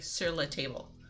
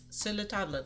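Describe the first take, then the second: First: The word table is said with English sounds. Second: The word table is said with French sounds. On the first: The speaker calls it wrong. "they know it's French, so they say sur la, but they don't understand" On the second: The speaker calls it right. "you're supposed to say it like the French"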